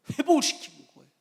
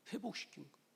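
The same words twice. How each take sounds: First: Loud, high ringing proclamation; emphatic declaration. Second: Soft echo. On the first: Preacher booming the good news to the congregation. Preacher stresses restoration, then echoes. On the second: Preacher softly echoing his point to the congregation. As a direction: let it settle quietly. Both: Acted.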